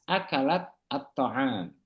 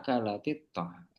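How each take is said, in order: First: The words are separated with a stop between them. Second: The words are linked with an added vowel between. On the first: The speaker calls it wrong. "Kan susah tuh. Berhenti-berhenti" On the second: The speaker calls it right. "Akhirnya disambung"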